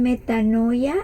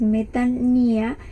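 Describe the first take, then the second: First: The middle has an 'oy' sound before 'a'. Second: The middle is a plain 'ee' sound, no 'oy'. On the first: "algunos lo pronuncian metanoia" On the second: "En el paréntesis aparece la pronunciación de esa palabra, que es metanía"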